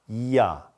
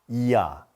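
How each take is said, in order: No difference in how they are said.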